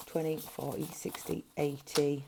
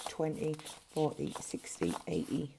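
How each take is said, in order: Both takes have the same delivery.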